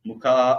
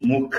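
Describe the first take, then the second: First: The final vowel is long. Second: The final vowel is short. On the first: The speaker calls it right. "அந்த கா நெடில் இருக்கு" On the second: The speaker calls it wrong. "நான் அதை தப்பா படிச்சேன்னு நினைக்கிறேன்"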